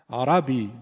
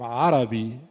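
First: عربی louder, with a held, doubled ya. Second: عربی without the doubled ya; wrong arabi. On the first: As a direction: lean on the ya in عربی. (عربی درست با تشدید) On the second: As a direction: say عربی lightly, no stress on the ya. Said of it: "نمیگیم عربی". (عربی اشتباه بدون تشدید) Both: Shown as a demonstration.

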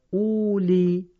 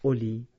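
First: اولی drawn out slowly and loudly, the written form; slow, loud, spelled-style اولی; spelled-out reading. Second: اولی read short and quick as spoken; quick, plain اولی; correct reading. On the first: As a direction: stretch out اولی letter by letter as written. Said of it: "نوشته اولو". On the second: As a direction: say اولی briefly the proper way. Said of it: "ولی باید بخونیم". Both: Shown as a demonstration.

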